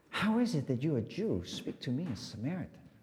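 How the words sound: It is said in a vulnerable tone.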